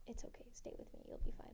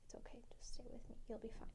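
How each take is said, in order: First: Soft voiceless whisper; whispered reassurance. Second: Soft, quick, voiceless whisper; whispered reassurance. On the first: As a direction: hush her gently. Dad's calm line, repeated. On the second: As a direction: hush her gently, barely a breath. Dad calmly whispering to his daughter. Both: Retold or imitated.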